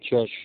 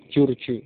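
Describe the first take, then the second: First: The name is said the English way, George. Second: The name is said the Arabic way, Jurju. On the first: "kalau ucapan bahasa Inggrisnya kan George"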